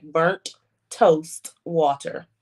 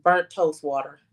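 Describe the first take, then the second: First: "Burnt toast water" drawn out very slowly, each word spaced; slow emphasis. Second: Said in the usual way. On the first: Real, not acted. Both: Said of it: "it's exactly what it sounds like".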